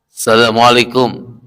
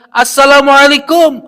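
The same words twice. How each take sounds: First: It is said at a plain, quiet level. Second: It is said louder still.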